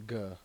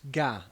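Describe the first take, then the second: First: The word ends in an 'er' sound with R. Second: The word ends in an open 'ah' vowel. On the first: "It's the E R at the end" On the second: "as opposed to an A"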